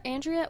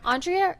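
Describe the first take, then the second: First: Andrea with a flat-A start, AN-dree-uh; pronunciation variant. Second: Andrea with an AHN start, AHN-dree-uh; pronunciation variant. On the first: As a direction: Andrea opening like the word "and". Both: Shown as a demonstration. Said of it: "sixty-two different ones".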